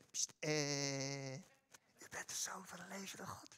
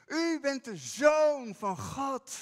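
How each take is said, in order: First: Hushed, secretive whisper; mock whisper. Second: Loud, slow, ringing declaration; bold proclamation. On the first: Peter mock-whispering his confession to Jesus, hushed whisper. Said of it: "ik geloof gewoon niet dat Petrus dat gefluisterd heeft". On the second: Shown as a demonstration. Peter confessing Jesus openly before the disciples, loud proclamation. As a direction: proclaim it out loud with full conviction. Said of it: "zo kan je het niet zachtjes zeggen".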